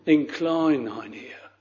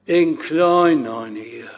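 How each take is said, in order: First: "Incline thine ear" said much softer, rising at the end; hushed echo of the prayer; softer repeated plea. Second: Said in the usual way. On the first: Retold or imitated. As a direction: let the repeated prayer sink to a hushed appeal. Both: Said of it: "this sinner that is praying like this".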